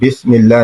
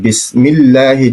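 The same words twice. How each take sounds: First: The s sound is heavy and thick. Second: The s sound is light and thin. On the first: The speaker calls it wrong. "फिर सा हो जाएगा" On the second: The speaker calls it right. "बिस में सीन पढ़ेंगे"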